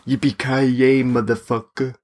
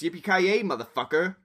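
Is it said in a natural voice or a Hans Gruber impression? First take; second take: Hans Gruber; natural voice. First: It is said imitating Hans Gruber's voice. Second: It is said in his natural voice.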